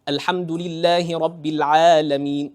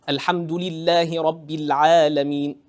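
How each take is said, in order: No difference in how they are said.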